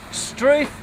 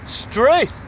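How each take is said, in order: First: High, rising struth of mock discovery; feigned astonishment, pitched up; mock surprise. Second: High, louder, rising struth; theatrical astonishment, pitched up and louder; hammed-up surprise. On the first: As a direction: pretend to be amazed by what's in the drawer. Finds photocopier in drawer. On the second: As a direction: play up the amazement at the find. Finds battery, exclaims again.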